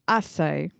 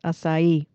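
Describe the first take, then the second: First: The stress is on the first syllable. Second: The stress is on the last syllable. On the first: This is the British way of saying it. "So emphasis on the first syllable" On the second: This is the American way of saying it. "in American English is emphasis on the last syllable"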